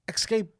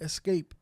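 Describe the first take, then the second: First: It begins with an 'ex' sound. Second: It begins with an 'es' sound. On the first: The speaker calls it wrong. "a lot of people, like here in the Midwest, are escape" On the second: The speaker calls it right. "No, it's escape"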